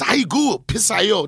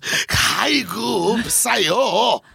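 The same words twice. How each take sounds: First: It is said in a calm, plain way. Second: It is said in a totally frustrated way.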